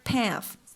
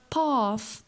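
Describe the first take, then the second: First: It has a short front open vowel. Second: It has a long back open vowel.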